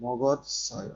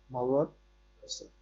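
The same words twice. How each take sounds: First: Said in the usual way. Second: মগৎসয় drawn out very slowly, syllable by syllable, with a rise at the end. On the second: Shown as a demonstration. Teacher slowly spells out মগৎসয় for the student to follow, very slow. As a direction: stretch মগৎসয় out slowly so every sound is clear. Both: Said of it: "মগ যোগ অতসয়".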